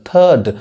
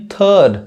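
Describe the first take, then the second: Both takes have the same delivery.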